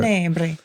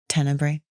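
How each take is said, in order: First: It is said with an Italian accent. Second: It is said in a plain, non-Italian way.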